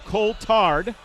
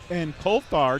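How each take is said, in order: First: The T in the name is hard. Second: The T in the name is soft. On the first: The speaker calls it right. "hard T on that. There you go" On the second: The speaker calls it wrong. "did I say that right?"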